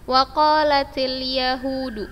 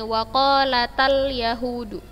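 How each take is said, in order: First: The vowel before 'yahudu' is an 'i' sound. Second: The vowel before 'yahudu' is an 'a' sound. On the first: The speaker calls it right. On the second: The speaker calls it wrong.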